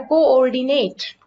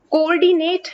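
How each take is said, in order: First: कोऑर्डिनेट with both o sounds kept apart; correct pronunciation. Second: कोऑर्डिनेट run together, higher and louder; wrong pronunciation. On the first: Teacher shows the correct co-ordinate, both o sounds kept apart. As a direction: say कोऑर्डिनेट with the two o's separate. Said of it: "इसको कहा जाता है". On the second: Teacher shows the wrong reading of co-ordinate, run together and louder. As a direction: say कोऑर्डिनेट fused, pitched up and louder. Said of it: "की बजाय इसको कहा जाता है". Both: Shown as a demonstration.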